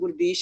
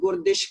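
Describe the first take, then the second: First: The second syllable has a long ee vowel. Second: The second syllable has a short i vowel. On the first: The speaker calls it right. "ਮੇਰਾ ਨਾਮ ਗੁਰਦੀਸ਼ ਆ" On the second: The speaker calls it wrong. "ਬਿਹਾਰੀ ਦੀ ਸਿਹਾਰੀ ਬਣਾ ਦੇਵੇ"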